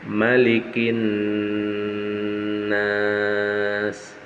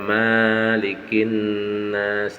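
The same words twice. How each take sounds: First: The first vowel is kept short and quick. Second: The first vowel is drawn out long. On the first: The speaker calls it right. "harus cepat, harus dibaca pendek" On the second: The speaker calls it wrong. "tidak boleh dibaca"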